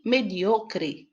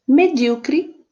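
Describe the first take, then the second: First: Mediocre said the Spanish way, stress on the O: me-DIO-cre. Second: Medíocre said the Portuguese way, stress on the DÍ: me-DÍ-o-cre; Medíocre with the stress on the third-to-last syllable. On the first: Teacher giving the Spanish stress of mediocre, stressed on DIO. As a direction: mediocre with the stress on the second-to-last syllable, said slowly. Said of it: "en español". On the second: Teacher giving the Portuguese stress of Medíocre, stressed on DÍ. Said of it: "en portugués". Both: Shown as a demonstration.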